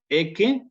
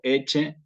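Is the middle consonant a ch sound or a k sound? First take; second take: k; ch. First: The middle consonant is a hard k sound. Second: The middle consonant is a ch sound. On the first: This is the classical Latin pronunciation. "Ecce en clásico" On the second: This is the ecclesiastical Latin pronunciation. "Eche en eclesiástico"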